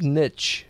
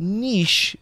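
First: "niche" rhyming with rich; "niche" pronounced NITCH. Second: "Niche" rhyming with leash, hoity-toity style; "Niche" pronounced NEESH. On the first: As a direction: say "niche" with a short i and a ch ending. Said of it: "I've heard it both ways". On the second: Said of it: "trying to be a little too hoity-toity". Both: Shown as a demonstration.

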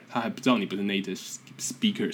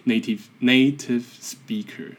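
First: Said in the usual way. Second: "native speaker" with a heavy Taiwanese accent, slow. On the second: Shown as a demonstration. Podcaster mocking his own English, heavy Taiwanese accent. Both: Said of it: "强调还很重".

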